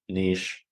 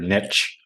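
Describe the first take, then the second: First: The word rhymes with 'leash'. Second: The word rhymes with 'pitch'. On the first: This is the usual form in Canada. The speaker calls it right. "rather than niche" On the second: This is the usual form in the States. The speaker calls it wrong. "in the States, ... it's more common to hear niche"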